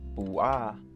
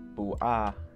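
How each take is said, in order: First: The final A is fully enunciated. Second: The final A is fully enunciated.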